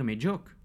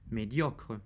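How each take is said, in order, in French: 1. Le son R final est omis. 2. Le son R final est clairement prononcé. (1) "on entend souvent dire médiocre" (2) "disons donc bien médiocre"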